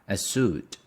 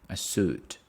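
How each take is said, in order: Both takes have the same delivery.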